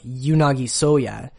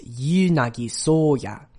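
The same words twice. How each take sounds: First: The first vowels of each name are short. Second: The first vowels of each name are long. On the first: The speaker calls it wrong. "it's not really like" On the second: The speaker calls it right. "both of those first syllables in this name are long"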